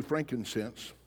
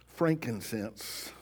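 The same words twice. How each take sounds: First: Said in the usual way. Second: Frankincense said slowly, each syllable stretched, rising at the end; slow, drawn-out Frankincense. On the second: Shown as a demonstration. Preacher to congregation, pronouncing Frankincense slowly with a rise.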